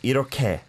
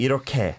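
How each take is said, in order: First: The middle consonant is an aspirated k sound. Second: The same.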